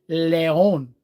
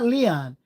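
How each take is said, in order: First: The name is pronounced like Spanish León. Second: The name is pronounced like the common English name. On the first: The speaker calls it right. "it's Leon. L E O N. It's lion for Spanish" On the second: The speaker calls it wrong. "It's not Leon"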